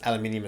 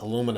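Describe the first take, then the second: First: It is said the Australian way, with five syllables. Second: It is said the American way, with four syllables.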